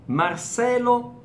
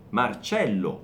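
First: The c sounds like an s. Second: The c sounds like ch. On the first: "Marcelo, famosissimo, comunissimo qui in Brasile" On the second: "occhio anche al suono della C"

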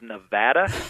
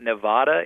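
First: It is said the local way. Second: It is said the Southern way. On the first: The speaker is from the area. The speaker calls it right. "it is Nevada" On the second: The speaker is not from the area. The speaker calls it wrong. "it is not Nevada"

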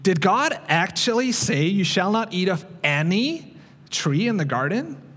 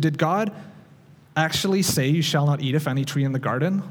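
First: It is said slyly, like the crafty serpent. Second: It is read in a plain, neutral tone.

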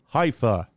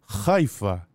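First: It starts with a soft, plain h sound. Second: It starts with a harsh, throaty sound. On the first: The speaker calls it wrong. "people don't say Haifa" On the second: The speaker calls it right. "It starts with this uniquely Israeli, some would say Middle Eastern sound, which is the chet"

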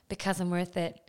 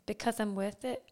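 First: It is said in a standard English accent. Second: It is said in a Geordie accent, lips barely moving. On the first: "She didn't say it like that" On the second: "I need to move my mouth really, like, not move it. Like"

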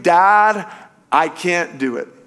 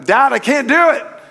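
First: It is shouted less loudly. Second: It is shouted more loudly.

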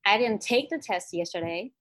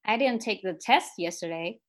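First: The stress is on "take". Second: The stress is on "test".

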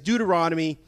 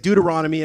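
First: The word is said at a normal pace. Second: The word is said quickly, run together.

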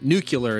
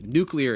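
First: The word is said as 'nucular'. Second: The word is said as 'nuclear'. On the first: The speaker calls it wrong. "Nuclear is the wrong way" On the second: The speaker calls it right. "Nuclear is the right way"

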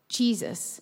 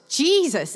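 First: It is said a bit louder. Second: It is shouted loudly.

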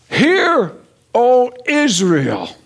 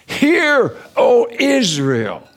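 First: It is said plainly, without extra emphasis. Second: It is said with strong, forceful emphasis.

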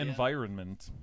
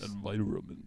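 First: It is said in a normal voice. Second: It is said low, in a deep voice.

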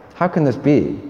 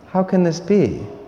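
First: The question sounds doubtful and dismissive. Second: The question sounds open and sincerely wondering. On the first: The asker believes it cannot happen. "They think it's not possible" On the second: The asker accepts it and wants to understand how. "that same question as said by Mary"

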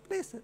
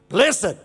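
First: It is said lightly, without force. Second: It is said strongly, with authority.

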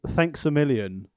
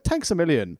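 First: It is said in a neutral accent. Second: It is said in a heavy Irish accent.

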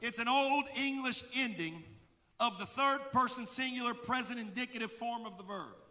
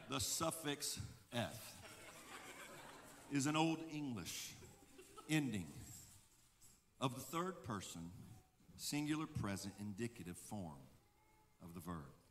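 First: It is said at normal speed. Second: It is said slowly.

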